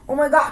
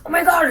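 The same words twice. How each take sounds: First: The voice stays level in pitch throughout. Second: The deep voice bends in pitch across the words. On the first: The speaker calls it wrong. "not like a flat out like" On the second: The speaker calls it right. "so you can kind of hear like the ah, that kind of like turn to it"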